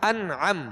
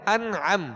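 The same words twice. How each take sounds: Both takes have the same delivery.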